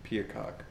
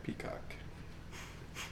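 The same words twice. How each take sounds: First: Said in the usual way. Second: Soft unvoiced whisper. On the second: Shown as a demonstration. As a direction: breathe the word out quietly. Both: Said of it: "break down a lot of words".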